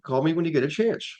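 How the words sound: The voice rises at the end. The speaker calls it right. "you want to end on an uptick"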